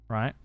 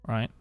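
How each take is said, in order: Both takes have the same delivery.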